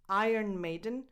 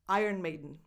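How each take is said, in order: First: It is said at a normal, careful pace. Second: It is said quickly and run together.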